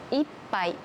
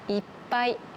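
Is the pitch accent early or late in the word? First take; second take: early; late. First: The pitch accent falls early in the word. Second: The pitch accent falls late in the word. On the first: It means one glass. "一杯というのは一つのグラスのことなので" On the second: It means a lot. "ひとつめのいっぱいはたくさんの意味です"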